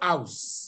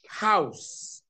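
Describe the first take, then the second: First: The initial h sound is dropped. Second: The initial h sound is clearly pronounced. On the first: The speaker calls it wrong. "not house" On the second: The speaker calls it right. "you must say H, like house"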